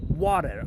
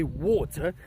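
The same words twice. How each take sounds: First: Water with a flapped t and an r at the end, lower; American water. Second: Water with a British t and no r. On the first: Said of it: "I can't even say it". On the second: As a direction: say water the British way, crisp t, soft ending. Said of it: "I will say water". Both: Shown as a demonstration.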